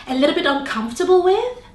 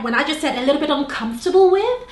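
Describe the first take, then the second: First: With lifted into an unsure rising tune; upward inflection. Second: With rises at the end like a question; rising inflection again. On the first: Coach shows nervous rising inflection on with. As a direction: end on with as if asking a question. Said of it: "So that was an inflection". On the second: Coach repeats the phrase with rising with. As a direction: let with climb up unsure. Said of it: "see how it doesn't actually make sense". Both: Shown as a demonstration.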